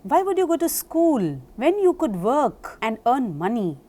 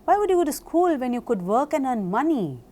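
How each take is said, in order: First: It is said slowly, with pauses between words. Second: It is said fast, without pauses between words.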